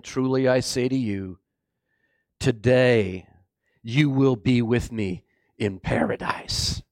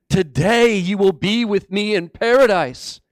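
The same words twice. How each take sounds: First: Low, measured, gentle assurance; solemn promise. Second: Raised, ringing repeat of a promise; emphatic preaching. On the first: Jesus to the dying criminal, solemn assurance. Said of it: "Jesus turned and said to him". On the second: Preacher repeating Jesus' promise to the congregation, emphatic. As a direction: proclaim it to the congregation. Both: Acted.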